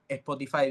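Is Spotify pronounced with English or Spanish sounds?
Spanish. It is pronounced with Spanish sounds. "en vez de decir eh"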